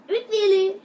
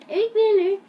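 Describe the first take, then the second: First: Said in the usual way. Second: Much higher, louder playful echo. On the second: Pretend. Vlogger echoes the title name for the intro, high playful echo.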